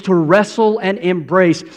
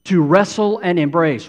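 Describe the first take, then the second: First: Wrestle said as rassle, Southern style; Southern drawl. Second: Said in the usual way. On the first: Shown as a demonstration. Preacher jokes about Southern folks, wrestle as rassle. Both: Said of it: "or if you're from the South".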